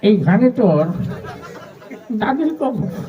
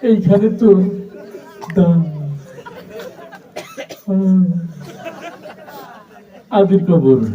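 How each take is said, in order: First: The line is recited in an old, mumbling voice. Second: The line is recited with a stutter. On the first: An old man is reciting while chewing. "একজন মুরব্বী মানুষ আসছে পান খেতে খেতে" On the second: The reciter struggles to get words out. "একটা তোতলা ছেলে আসছে"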